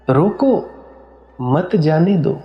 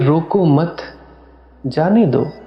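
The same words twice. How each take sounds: First: The pause comes after 'roko'. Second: The pause comes after 'mat'.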